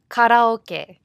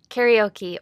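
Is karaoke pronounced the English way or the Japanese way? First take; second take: Japanese; English. First: It is pronounced the Japanese way. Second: It is pronounced the English way.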